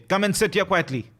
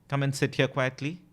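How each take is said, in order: First: It is said loudly, almost screamed. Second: It is said in a calm, normal voice.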